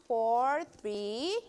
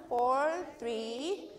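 No difference in how they are said.

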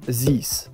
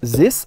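First: A 'z'-like sound is drawn out. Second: The sounds are short and not drawn out. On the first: The speaker calls it wrong. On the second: The speaker calls it right.

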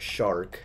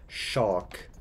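First: It is said in an American accent. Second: It is said in a British accent. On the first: "The American says it shark" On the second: "The British person says shock"

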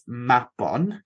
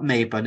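First: The first vowel is an open 'ah' sound. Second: The first vowel is not an open 'ah'. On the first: The speaker calls it right. "it's Mabon, because we say the A like an R" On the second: The speaker calls it wrong. "it's not Mabon"

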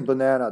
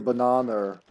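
First: The word ends on a plain vowel, no R. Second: The word ends with an added R sound. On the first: "they don't say banana" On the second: "there's that R that doesn't really exist, but they say it"

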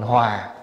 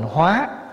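First: The word is said with a falling tone. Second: The word is said with a rising tone. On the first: Harmony. "Bỏ dấu huyền vô thành hòa" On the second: To transform. "nếu bỏ dấu sắc vô là thành hóa"

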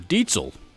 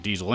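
First: The middle consonant is a 'ts' sound. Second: The middle consonant is a 'z' sound. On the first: This is the original German pronunciation. "as [name] likes to remind us of how that brand name is actually pronounced in German" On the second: This is the common American pronunciation. "over here in the States, most of us pronounce it as Diesel"

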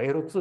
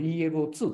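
First: The letters are read together as one word. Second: The letters are spelled out one by one. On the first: This is how a colleague says it. "絹川さんがエロツー、エロツーというもんだから" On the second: This is the speaker's own way of saying it. "僕はこれイーエルオーツーって発音するんだけど"

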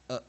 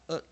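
First: The vowel is weak and reduced. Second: The vowel is strong and full. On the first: "取出个弱母音" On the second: "那把 a 加强一点念"

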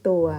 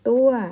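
First: The syllable is said with a low tone. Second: The syllable is said with a falling tone. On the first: "ไม่เอกตัว" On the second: "ไม่โทตัว"

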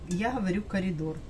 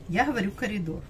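Both takes have the same delivery.

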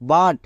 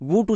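First: The vowel is an open 'ah' sound. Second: The vowel is a rounded 'oo' sound. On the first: The speaker calls it right. "ইউ এর জন্য এখানে আকার sound করব" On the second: The speaker calls it wrong. "ভুল করেও বুট উচ্চারণ করব না"

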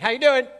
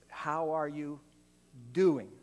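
First: It is asked in a quick, casual, passing way. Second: It is asked slowly and sincerely, with real interest.

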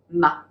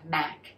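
First: The word ends with only a faint K. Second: The word ends with a hard, released K. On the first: "In Cantonese, it's pronounced the low tone ma, ma. There's that slight K sound at the end" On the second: "In English, it's pronounced with the eh, Mac"

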